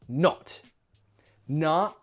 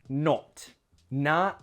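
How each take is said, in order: The two takes are said the same way.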